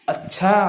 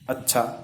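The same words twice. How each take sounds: First: It is said as a question. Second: It is said as a plain statement. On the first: "अच्छा प्रश्नवाचक" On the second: "पहला अच्छा"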